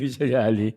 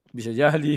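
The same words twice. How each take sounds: First: Said through a laugh. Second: Said in the usual way. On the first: Real, not acted. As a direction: chuckle while saying it. Repeats it while laughing.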